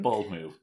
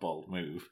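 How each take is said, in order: First: The stress falls on the word bold. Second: The stress falls on the word move. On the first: The speaker calls it right. "Emphasis on bold rather than move" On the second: The speaker calls it wrong. "not Bold Move"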